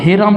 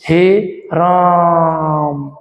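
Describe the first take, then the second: First: The words are said quickly, without stretching. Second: The final vowel is drawn out long.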